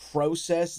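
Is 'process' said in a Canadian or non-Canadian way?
Canadian. The word is said with a Canadian pronunciation. The speaker calls it wrong.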